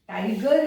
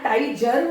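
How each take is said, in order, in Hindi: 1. बीच का व्यंजन कठोर g ध्वनि है। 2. बीच का व्यंजन j ध्वनि है। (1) "टाइगर है" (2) "यहां टाइजर होना चाहिए"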